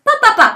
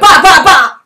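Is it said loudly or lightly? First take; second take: lightly; loudly. First: It is said lightly and softly. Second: It is said loudly and heavily.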